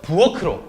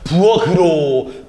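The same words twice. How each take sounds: First: The middle consonant is an aspirated k sound. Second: The middle consonant is a plain g sound. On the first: The speaker calls it right. "음절의 끝소리 규칙을 적용하지 않은 상태 ... 올바른 발음" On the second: The speaker calls it wrong. "기억으로 변해야겠네요 ... 뭔가 발음이 좀 이상한 것 같아요"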